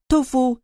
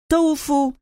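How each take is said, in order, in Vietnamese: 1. Âm tiết đầu không được nhấn. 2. Âm tiết đầu được nhấn. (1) "nói theo kiểu bình thường trong tiếng Nhật" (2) "nhấn mạnh vào chữ to"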